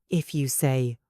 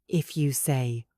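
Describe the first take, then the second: The two takes are said the same way.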